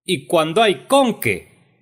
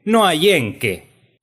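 First: CON pushed high and loud in "con qué"; high, loud accent on CON; stress on CON. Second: EN pitched high and loud in "en qué"; slow down and hit the word EN; high, drawn-out accent on EN; stress on EN. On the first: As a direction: lean hard on the O of CON. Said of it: "pongan el acento en la O". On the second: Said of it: "pongan el acento en la primera E". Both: Acted.

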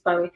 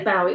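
First: Bowie said as BOH-ee; corrected Bowie, with an "oh" vowel; standard pronunciation. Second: Bowie said as BOW-ee, like "bough"; Cockney Bowie, with an "ow" vowel; Cockney pronunciation. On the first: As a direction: rhyme the first syllable of Bowie with "go". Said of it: "and it is [name]". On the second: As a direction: rhyme the first syllable of Bowie with "cow". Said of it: "It's very Cockney". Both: Shown as a demonstration.

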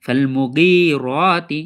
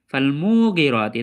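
First: Slow মুগিরাতি, short মু and long held গি; correct elongation. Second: মুগিরাতি with long মু, quick short গি; wrong elongation. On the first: Teacher answering how to read it properly, correct elongation. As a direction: keep মু brief, draw out গি and রা in মুগিরাতি. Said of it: "তো সঠিক পড়া কি হবে?". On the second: Teacher demonstrating how students misread it, wrong elongation. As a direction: stretch মু, clip গি short in মুগিরাতি. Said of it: "তাহলে সেটা হবে ভুল আমাদের". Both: Shown as a demonstration.

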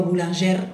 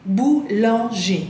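First: "boulanger" read Spanish-style, ending in a sounded R; the mistake of "boulanger" said as "bulanjer"; wrong pronunciation. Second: "Boulanger" said slowly, ending in an accented E with no R; slow, correct model of "Boulanger"; correct French. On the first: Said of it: "no digo boulanger". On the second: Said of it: "acuérdense que E acento". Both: Shown as a demonstration.

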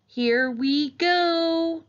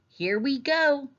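First: High, loud, very drawn-out send-off; long soaring cry, held high on the last word; excited launch call. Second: Put-on high, drawn-out child's send-off; mildly excited, lifting the pitch as you set off; eager young rider, higher and slower. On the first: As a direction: stretch it out as you plunge downhill. Child launches down steep cliff. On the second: Child sets off on trike. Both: A narrator's reading.

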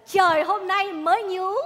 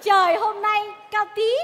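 First: Slow, drawn-out poem recital, with a slightly higher start. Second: Slow, drawn-out poem recital. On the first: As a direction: recite it like a solemn verse again. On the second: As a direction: recite it like a solemn verse. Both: Acted. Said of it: "mày ngâm lại tao chơi liền".

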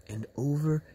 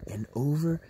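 No difference in how they are said.

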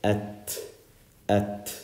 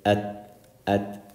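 First: "at" with a puff of air after the t; breath-released t ending "at"; hems. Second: "at" with the t held unreleased; closed, airless t ending "at"; no hems. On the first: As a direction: let air out on the t of "at". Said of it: "We let out air". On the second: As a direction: stop "at" dead, letting no air out. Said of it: "Otherwise, you wouldn't hear it". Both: Shown as a demonstration.

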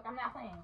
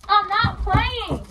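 First: Very soft, falling repeat; hushed, simmering insistence; quiet warning. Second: High, slow, drawn-out warning; heated, drawn-out protest; angry insistence. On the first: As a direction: mutter the warning low. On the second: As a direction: stretch it out to show you mean it. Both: Acted.

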